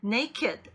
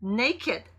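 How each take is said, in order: No difference in how they are said.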